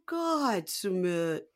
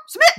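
First: Singsong Jenny. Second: Very high, loud squawk; Jenny as chicken. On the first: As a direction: draw it out in a whiny impression. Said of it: "It's a lot of that". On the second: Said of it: "Most people do Jenny as a chicken". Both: Retold or imitated.

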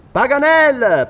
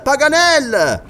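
First: Higher, loud call up into the tree; loud hail to a hidden friend. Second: Higher, loud and slow call; slow loud hail to the treetop; drawn-out call. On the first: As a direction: shout his name up to the treetop. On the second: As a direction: stretch the name out as you shout it upward. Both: Acted. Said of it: "gridò Glenarvan".

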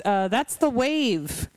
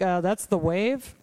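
First: Slow "that's the wave", falling on "wave"; falling retold correction. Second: Slow "that's the wave", rising on "wave"; questioning retold correction. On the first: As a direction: let "wave" drop as a plain fact. Retold co-commentator's deadpan correction.

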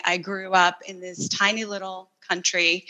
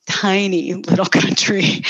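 First: Said in the usual way. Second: Laughing emphasis. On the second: Real, not acted. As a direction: lean on tiny, laughing through the phrase. Repeats it with a laugh.

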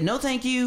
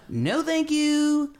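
First: Higher mock no thank you; a touch of a high, prim refusal. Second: Very high, slow, drawn-out no thank you; the athleticism in him begging off in a squeak; squeaky mock refusal. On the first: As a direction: say it like your body refusing. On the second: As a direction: stretch it out in a tiny high voice. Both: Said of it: "All my athleticism said".

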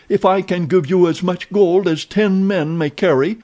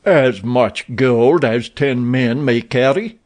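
First: Higher, eager pleading; pleading offer. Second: Slow, disbelieving echo; incredulous repeat. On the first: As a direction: tempt him while begging. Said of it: "he pleaded". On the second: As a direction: weigh each word in disbelief. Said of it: "repeated Abdul Morak". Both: A narrator's reading.

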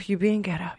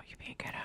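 First: Said in the usual way. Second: Unvoiced whisper, far softer; whispered self-scolding. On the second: [name] checking herself after the mix-up, whispered self-scolding. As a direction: whisper a reprimand to yourself.

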